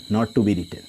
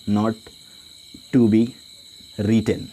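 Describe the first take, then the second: First: Said in the usual way. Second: Not, to be, written spoken as separate pieces with long pauses; slow dictation. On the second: Shown as a demonstration. Teacher dictating a note for students to copy, word by word. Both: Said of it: "यहाँ पे लिख सकते हैं".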